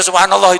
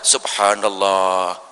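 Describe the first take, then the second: First: It is said quickly. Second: It is said slowly.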